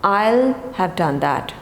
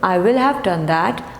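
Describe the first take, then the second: First: The word will is contracted onto I. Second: The word will is said in full.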